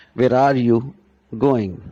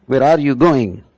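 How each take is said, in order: First: Where are you going with a lift on are; Where are you going, first take; stress demo. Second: Where are you going punched louder, weight on going; Where are you GOING, louder take; stressed question. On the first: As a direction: model the question's stress. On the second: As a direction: hit going hard. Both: Shown as a demonstration. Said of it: "our stress is entirely on going".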